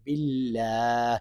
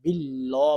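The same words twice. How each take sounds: First: "বিল্লাহ" with an open, long aa; soft, drawn-out "বিল্লাহ", open final vowel; correct pronunciation. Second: "বিল্লাহ" with a rounded, o-like long vowel; soft "বিল্লাহ", last vowel rounded toward o; wrong pronunciation. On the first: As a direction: say "বিল্লাহ" slowly and softly as bil-laah. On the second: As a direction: say "বিল্লাহ" softly as bil-loh. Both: Shown as a demonstration. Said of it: "বিল্লাহ বলবেন না".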